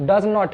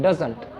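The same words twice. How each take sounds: First: Said in the usual way. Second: Doesn't said short for "does not"; contracted pronunciation. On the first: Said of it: "थोड़ा सा short भी". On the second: Shown as a demonstration. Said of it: "pronunciation में doesn't". (doesn't को जोड़कर छोटे रूप में बोलें)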